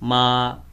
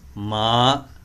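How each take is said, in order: First: The pitch stays level and flat. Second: The pitch rises from low to high. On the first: "that is flat" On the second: "that is rising tone"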